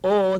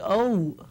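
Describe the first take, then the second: First: The o vowel is flat and steady. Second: The o vowel glides and is not flat. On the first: The speaker calls it right. "instead of saying oh" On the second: The speaker calls it wrong. "they say oh"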